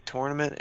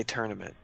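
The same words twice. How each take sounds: First: Tournament said TOR-nuh-ment, first vowel like torn; tor-nament. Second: Tournament said TUR-nuh-ment, first vowel like turn; tur-nament. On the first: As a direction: say tournament with the or of north. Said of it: "I have to call it a tournament". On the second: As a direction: say tournament with the r-colored ur of burn. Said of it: "under no circumstances am I allowed to call this a tournament". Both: Shown as a demonstration.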